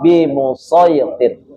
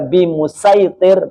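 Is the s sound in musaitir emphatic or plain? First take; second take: emphatic; plain. First: The s sound is emphatic and heavy. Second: The s sound is plain and light. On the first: It follows the reading used here. "kita baca tetap dengan dengan shod" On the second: It follows a different transmitted reading. "riwayat lain membaca dengan sin"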